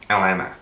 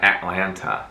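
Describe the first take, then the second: First: The middle t sound is dropped. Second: The middle t sound is clearly pronounced. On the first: "she doesn't even pronounce the T" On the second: "she doesn't say Atlanta"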